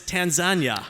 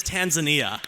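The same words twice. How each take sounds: First: Tanzania loud and high, as tan-ZAN-yuh; tan-ZAN-yuh pronunciation. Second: Tanzania loud, as Tan-zuh-NEE-uh; Tan-zuh-NEE-uh pronunciation. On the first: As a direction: call out Tanzania with three syllables, ending ZAN-yuh. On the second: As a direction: call out Tanzania with four syllables, ending NEE-uh. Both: Shown as a demonstration. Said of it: "I've heard both pronunciations".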